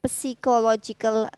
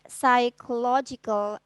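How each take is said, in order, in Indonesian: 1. Kata ini dimulai dengan bunyi P yang terdengar jelas. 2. Kata ini dimulai dengan bunyi S, tidak ada P. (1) "not psychological" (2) "you should try to pronounce the word psychological assessment"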